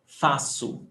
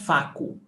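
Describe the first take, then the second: First: The middle consonant is an s sound. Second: The middle consonant is a hard k sound. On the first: The speaker calls it right. "cedilha has the sound as s" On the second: The speaker calls it wrong. "It's not faco"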